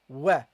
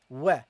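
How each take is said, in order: First: The syllable is said light, with a bright vowel. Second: The same.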